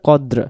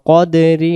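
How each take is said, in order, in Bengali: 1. এটি খালি r ব্যঞ্জন দিয়ে শেষ। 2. এটি ছোট i স্বরধ্বনি দিয়ে শেষ। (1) "দমটা ছেড়ে দিলে কদ্র" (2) "যদি ধরে যাই"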